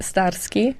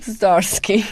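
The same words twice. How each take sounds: First: It is said in a Polish accent. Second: It is said in a Bronx accent.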